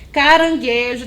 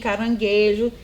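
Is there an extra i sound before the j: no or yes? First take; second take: no; yes. First: It is said without an extra i sound. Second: It is said with an extra i sound. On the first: The speaker calls it right. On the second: The speaker calls it wrong.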